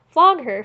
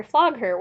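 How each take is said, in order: First: Much higher, much louder yell; full shout. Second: Louder but less than the first cry; milder shout. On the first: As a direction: egg him on at full voice. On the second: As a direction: repeat the cry, a notch down. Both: A narrator's reading. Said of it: "shouts were heard in the crowd".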